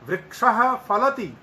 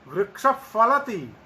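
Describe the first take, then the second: First: The first word ends in a breathy h sound. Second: The first word ends in a puff between f and h. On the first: "विसर्ग अंत में आधे हकार जैसा उच्चारण" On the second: "आधे फकार आधे विसर्ग जैसा उच्चारण"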